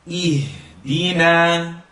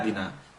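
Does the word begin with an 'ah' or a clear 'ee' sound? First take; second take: ee; ah. First: The first vowel is a clear 'ee' sound. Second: The first vowel is a clipped 'ah' sound. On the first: The speaker calls it right. "keep this the E sound very clear" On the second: The speaker calls it wrong. "because they're cutting the alif"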